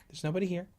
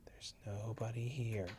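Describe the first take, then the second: First: Said in the usual way. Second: Slow hushed whisper. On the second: Real, not acted. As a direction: whisper slowly, reassuring. Repeat whispered slowly.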